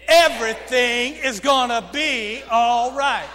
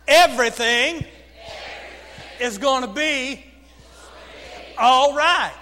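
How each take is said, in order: First: "Everything" hit hard with a glottal attack; accent on Everything. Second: Loud, broken into three separate phrases; repeat-after-me phrasing. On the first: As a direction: punch the start of "Everything", loud, in one continuous phrase. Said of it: "put a little accent on that word". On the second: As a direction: call it out phrase by phrase, pausing for echoes. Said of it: "repeat after me". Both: Shown as a demonstration.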